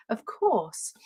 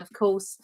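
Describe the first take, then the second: First: Said in the usual way. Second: "course" said with a broad Essex vowel; Essex accent. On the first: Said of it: "I didn't mean that". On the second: Real, not acted. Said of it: "oh, my Essex accent just slipped in there".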